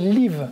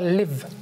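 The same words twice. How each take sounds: First: The vowel is long and tense, like 'ee'. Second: The vowel is short and relaxed. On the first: The speaker calls it wrong. "on voit un i, on a envie de prononcer live. Mais en fait, non" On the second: The speaker calls it right. "On ne doit pas trop ouvrir la bouche, on doit faire live"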